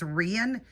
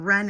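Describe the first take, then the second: First: The name is said as 'Rian', like Ian. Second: The name is said as short 'Ren'. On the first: The speaker calls it right. "It's Rian is how she pronounces his name" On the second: The speaker calls it wrong. "I was saying Ren"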